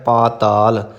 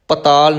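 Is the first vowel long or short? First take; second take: long; short. First: The first vowel is long. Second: The first vowel is short. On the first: The speaker calls it right. "ਇਸ ਲਈ ਉਚਾਰਨ ਕਰਨਾ ਹੈ ਪਾਤਾਲ" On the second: The speaker calls it wrong. "ਪਤਾਲ ਨਹੀਂ ਕਹਿਣਾ"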